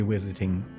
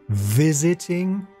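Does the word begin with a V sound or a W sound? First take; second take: W sound; V sound. First: The word begins with a W sound. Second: The word begins with a V sound. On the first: The speaker calls it wrong. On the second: The speaker calls it right.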